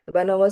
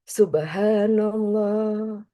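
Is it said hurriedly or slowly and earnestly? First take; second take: hurriedly; earnestly. First: It is said quickly and mechanically, without feeling. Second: It is said slowly and earnestly, with feeling.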